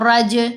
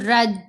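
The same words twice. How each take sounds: First: The J sound bounces with an echo. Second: The J sound is smooth with no echo. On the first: The speaker calls it right. "ये कलकला है" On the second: The speaker calls it wrong. "बड़ा स्मूथ रखी आवाज"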